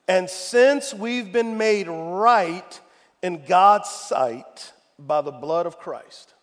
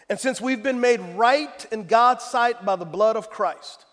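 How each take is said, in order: First: It is read slowly and deliberately. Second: It is read at a normal pace.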